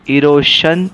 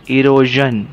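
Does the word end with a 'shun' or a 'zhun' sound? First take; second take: shun; zhun. First: The ending is said with a 'shun' sound. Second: The ending is said with a 'zhun' sound. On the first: The speaker calls it wrong. "इरोशन नाही" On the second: The speaker calls it right. "एस आय ओ एनचा उच्चार शन होतो, जन होतो"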